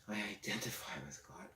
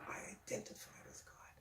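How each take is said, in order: First: It is spoken in a normal voice. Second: It is spoken in a whisper.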